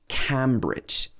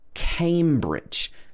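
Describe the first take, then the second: First: The first syllable sounds like "cam". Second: The first syllable sounds like "came". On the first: The speaker calls it wrong. "make sure that you don't pronounce this Cambridge" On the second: The speaker calls it right. "came at the beginning"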